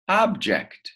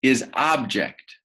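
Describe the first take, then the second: First: "Object" pitched much higher with a falling tune; teacher's high, clear model of "Object"; bright lifted model word. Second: Said in the usual way. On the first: Shown as a demonstration. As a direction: sing out "Object" high, then drop. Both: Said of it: "Another word".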